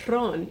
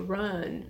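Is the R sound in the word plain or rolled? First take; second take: rolled; plain. First: The R at the start is rolled. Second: The R at the start is plain, not rolled. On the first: The speaker calls it wrong. "you don't roll the R. ... But you don't say run" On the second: The speaker calls it right. "you say run"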